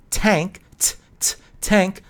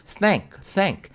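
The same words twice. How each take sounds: First: "tank" with a crisp t, tongue hidden; hard t, no th, in "tank"; t pronunciation demo. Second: High, separated "Thank" with clear th; carefully modelled th in "thank"; th pronunciation demo. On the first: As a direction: break out the "t", then say "tank". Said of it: "you do not see the tongue". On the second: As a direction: show the tongue on "Thank", twice. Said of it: "You see my tongue". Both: Shown as a demonstration.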